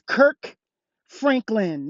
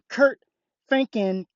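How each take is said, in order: First: The first name ends with a k sound. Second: The first name ends with a t sound. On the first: The speaker calls it right. "It's [name]" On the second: The speaker calls it wrong.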